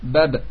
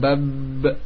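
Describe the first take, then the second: First: The final sound stops abruptly. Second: The final sound is drawn out long. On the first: The speaker calls it right. "dengan serta-merta selesai" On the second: The speaker calls it wrong. "tidak bab, tidak panjang suaranya"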